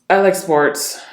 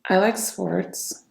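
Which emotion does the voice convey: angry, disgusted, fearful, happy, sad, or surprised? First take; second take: angry; sad. First: The voice sounds deep and angry. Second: The voice sounds sad and low. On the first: "Deep, angry tonality" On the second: "Sadness. Low vibrational tonality"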